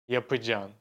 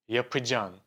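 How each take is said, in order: Both takes have the same delivery.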